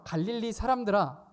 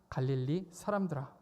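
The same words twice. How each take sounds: First: 갈릴리 사람들아 called out loud and high like a rebuke; rebuking call demo. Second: Said in the usual way. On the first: Shown as a demonstration. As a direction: show the congregation how to call it out. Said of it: "같이 해볼까요?". (갈릴리 사람들아를 크고 높게 외치듯이) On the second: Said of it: "시작!".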